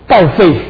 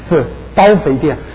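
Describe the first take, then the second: First: The syllables are said with heavier, stronger tones. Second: The syllables are said with lighter, plainer tones. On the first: The shop goes to ruin. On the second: The shop makes you fat.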